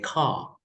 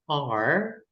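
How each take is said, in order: First: It is said with a British accent. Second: It is said with an American accent. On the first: "British would say car"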